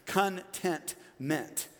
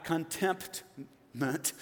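First: "contentment" very slowly, syllable by syllable; slow, separated "con... tent... ment"; corrected word, contentment. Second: "contemptment" drawn out slowly, with a MPT in the middle; slow, deliberate "con-TEMPT-ment"; wrong word, contemptment. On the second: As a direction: say "contemptment" syllable by syllable, sounding the P. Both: Shown as a demonstration. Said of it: "Not contemptment".

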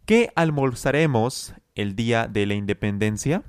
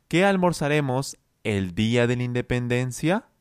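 First: Qué almorzaremos with a clear rising question end; question tune. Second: Qué almorzaremos el día de la independencia with the last words rising; question intonation. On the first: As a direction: let the question rise at the end of independencia. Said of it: "Es una pregunta". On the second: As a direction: push the rise onto the final words. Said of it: "se suele enfocar en las últimas palabras". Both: Shown as a demonstration.

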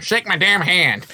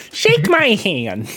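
First: Slow, high wrestler demand; Brock Lesnar impression. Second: Higher, slow nerdy voice; whiny nerd trying to sound tough. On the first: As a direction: growl it like a tough wrestler. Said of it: "So we do the Brock Lesnar". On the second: Retold or imitated. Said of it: "general nerd voice".

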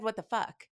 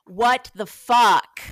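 First: Said in the usual way. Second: Slow, much louder what the fuck; slow emphatic. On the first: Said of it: "and he was like". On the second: Retold or imitated. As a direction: spell it out loudly, deliberately. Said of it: "he's like".

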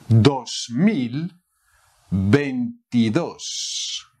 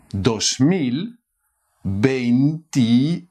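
First: "veintidós" drawn out slowly; slow model. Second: Said in the usual way. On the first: Shown as a demonstration. Teacher modelling the year slowly for learners. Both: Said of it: "How to say two thousand".

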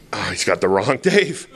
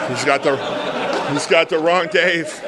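First: Said in the usual way. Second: Higher, laughing inner voice; laughing panic. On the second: Retold or imitated. A sponsor recalls his thoughts, laughing and higher. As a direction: laugh at his own mix-up in his head. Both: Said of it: "and my head goes".

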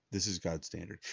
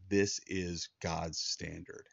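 First: Said in the usual way. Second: Each word set down slowly and firmly, This is God's standard; slow, weighty, deliberate delivery of This is God's standard; slow emphatic stress. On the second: Shown as a demonstration. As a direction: lean on every word of This is God's standard, drawn out.

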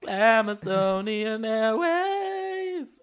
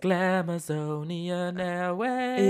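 First: Higher, slower, more hammed-up call; drag queen airline announcement. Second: Stretched, slow showy announcement; sing-song Glamazonian Airways call; drag queen airline announcement. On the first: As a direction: stretch out Glamazonian Airways grandly. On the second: Retold or imitated. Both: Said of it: "in der sechsten oder siebten Staffel von RuPaul's Drag Race".

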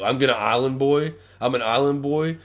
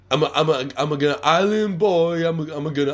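First: Incredulous question. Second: Dopey mock rapper chant, pitched higher. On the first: Real, not acted. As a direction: repeat it back like it makes no sense. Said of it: "what do you mean you're gonna Island Boy?". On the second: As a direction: parody their clip like a goofball. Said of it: "talking about how they're Island Boys".

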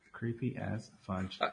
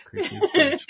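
First: Slow, soft and low; low creepy murmur. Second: High squeal. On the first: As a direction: drag it out low and hushed. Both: Shown as a demonstration.

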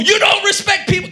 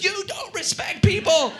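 First: High, loud angry shout; furious mock rant at full volume; abusive shouting. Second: YOU DON'T RESPECT PEOPLE, each word high and emphatic; in capital letters. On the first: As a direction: yell it as a hammed-up complaint. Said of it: "I am abusing the person". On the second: Retold or imitated. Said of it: "Capital letters".

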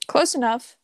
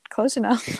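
First: Laughing repeat. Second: Said in the usual way. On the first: Real, not acted.

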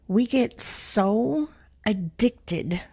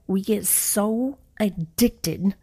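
First: Breathy slow whisper for emphasis. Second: Slow emphatic repeat. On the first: Speaker whispering a point to her listeners, slow and hushed. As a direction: whisper it slowly to the audience. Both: Shown as a demonstration. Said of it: "I'm gonna say that again".

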